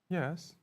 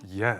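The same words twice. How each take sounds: First: It is said in a sad tone. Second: It is said in a neutral tone.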